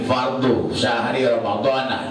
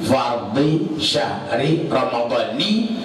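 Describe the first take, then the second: First: The final word ends with an 'a' vowel. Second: The final word ends with an 'i' vowel. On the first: The speaker calls it wrong. "itu salah itu" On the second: The speaker calls it right. "lafaznya betul"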